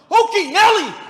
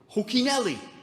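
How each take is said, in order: First: It is exclaimed loudly, with strong energy. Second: It is said plainly, without much energy. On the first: "It was more like" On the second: "he didn't say it like that"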